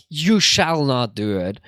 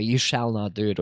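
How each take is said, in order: First: Slow, firm commanding shall; stern command. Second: Low, firm forbidding tone; stern command. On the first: Demonstrating the stern commanding use of shall, slow and firm. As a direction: lay down the law with You shall not do it. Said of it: "I don't say it like". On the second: Repeating the forbidding shall for chat, low and firm. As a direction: forbid it flatly. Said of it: "if you say it like that way". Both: Shown as a demonstration.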